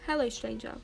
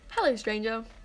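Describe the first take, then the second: First: The greeting is said with little emphasis. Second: The greeting is said with strong emphasis. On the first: The speaker calls it wrong. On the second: The speaker calls it right.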